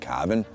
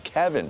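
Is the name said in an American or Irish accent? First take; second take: Irish; American. First: The name is said in an Irish accent. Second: The name is said in an American accent. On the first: Someone else said it. "Just even the way he said Kevin, like" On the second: This is how the speakers themselves say it. "it's Kevin for us"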